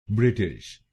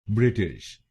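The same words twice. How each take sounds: The two takes are said the same way.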